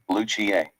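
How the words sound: It is said the Spanish or Italian way. "If you're Spanish or Italian, you'd say"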